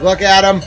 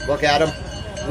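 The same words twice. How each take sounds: First: Bursts out loud and high with glee; excited shout. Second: Said in the usual way. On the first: Real, not acted. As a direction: look at 'em, thrilled, almost yelling. Excited reveal of goat picture.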